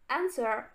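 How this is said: It is said in an American accent.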